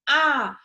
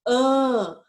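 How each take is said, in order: First: The vowel is open and oral. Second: The vowel is nasalized, sounding like an. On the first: "a vogal A é uma vogal aberta. Olha como eu tô falando" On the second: "Quando a gente coloca o tio em cima, ela fica assim"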